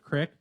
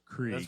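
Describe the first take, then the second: First: The word is said with a short vowel, 'crick'. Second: The word is said with a long vowel, 'creek'. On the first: It reflects a Midwestern, rural upbringing. "we always called it a crick" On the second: It mocks how Northerners insist on the spelling. "they'll do that pretentious voice and be like"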